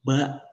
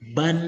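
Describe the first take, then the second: First: The syllable ends on a plain vowel. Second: The syllable ends with an n sound. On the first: The letter carries no tanwin. "Misalkan ba" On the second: The letter carries tanwin. "kalau dia ditanwin maka jadi ban"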